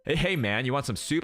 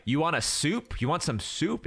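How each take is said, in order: First: Easygoing, friendly "Hey, hey, man"; mild mock casual waiter; laid-back dude. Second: Casual waiter. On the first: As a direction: offer the soup like a buddy would. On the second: Retold or imitated. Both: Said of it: "If he said it like that".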